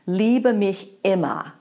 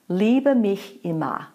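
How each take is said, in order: First: Immer begins with a hard glottal stroke. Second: Immer begins with a gentle, soft separation. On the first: The speaker calls it wrong. "Here's a real glottal stroke on immer" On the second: The speaker calls it right. "that was just a gentle separation on the word immer"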